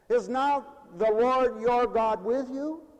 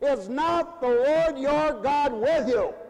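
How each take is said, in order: First: The question sounds hesitant and doubtful. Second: The question sounds firm and challenging. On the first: The asker is unsure whether God is present. "as a doubting person would take it" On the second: The question is a reason to act, expecting agreement. "as an argument"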